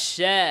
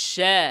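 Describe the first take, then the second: The two takes are said the same way.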